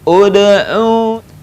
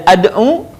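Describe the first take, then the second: First: The word begins with an u vowel. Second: The word begins with an a vowel. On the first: The speaker calls it right. "maka baca dengan U" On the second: The speaker calls it wrong. "dibaca tidak ad'u"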